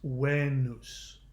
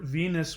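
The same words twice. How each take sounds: First: The word is said with a Latin pronunciation. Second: The word is said with an English pronunciation. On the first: The speaker calls it right. "in the Latin, the word Venus was pronounced Venus" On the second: The speaker calls it wrong. "the way we pronounce it is actually completely mispronounced"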